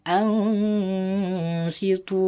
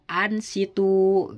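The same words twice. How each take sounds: First: The n is held with a long nasal hum. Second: The n is said plainly without a nasal hum. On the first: The speaker calls it right. "Jadi dibaca dengung" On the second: The speaker calls it wrong. "tidak boleh dibaca ansitu"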